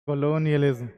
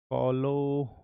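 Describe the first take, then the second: First: कॉलोनियलिज्म said in full, ko-lo-ni-ya-liz-m, without breaking; successful pronunciation. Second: कॉलोनियलिज्म trips and breaks off after the first syllables, quiet and unsure; fumbled pronunciation. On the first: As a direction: finally land कॉलोनियलिज्म cleanly in one go. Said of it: "हाँ ये ठीक है". (कॉलोनियलिज्म को पूरा एक बार में साफ़ बोलना) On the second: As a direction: stumble over कॉलोनियलिज्म and fail to get through it in one go. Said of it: "इसको मैं एक बार में प्रोनाउंस कर ले जाऊँ". (कॉलोनियलिज्म को अटकते हुए अधूरा बोलना) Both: Shown as a demonstration.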